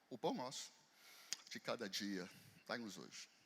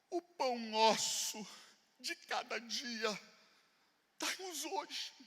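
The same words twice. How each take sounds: First: It is said in a calm, steady prayer tone. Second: It is said in a pleading, begging tone. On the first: The request is a trusting prayer. The speaker calls it right. "O que é uma oração?" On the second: The request is a desperate plea for bread. The speaker calls it wrong. "O que é uma súplica?"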